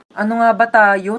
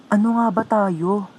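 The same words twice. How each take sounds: First: Said in the usual way. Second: Soft, slow question. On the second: Acted. Romantic line, then repeated back.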